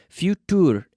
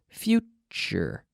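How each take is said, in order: First: The middle consonant is a plain t sound. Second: The middle consonant is a ch sound. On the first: The speaker calls it wrong. "Eso no vale" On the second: The speaker calls it right. "T U sound, chew"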